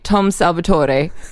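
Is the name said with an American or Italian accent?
Italian. The name is said the Italian way.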